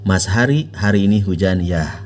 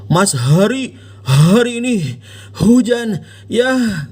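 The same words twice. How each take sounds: First: The H sounds are plain and light. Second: The H sounds are pushed heavily from the chest. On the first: The speaker calls it right. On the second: The speaker calls it wrong.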